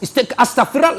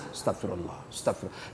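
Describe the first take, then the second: First: Said in the usual way. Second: Barely whispered astagfirullah, very soft; mock whispered prayer. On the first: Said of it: "Jangan ist". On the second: Stingy man pretending to repent, whispering astagfirullah. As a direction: breathe "astagfirullah" under your breath.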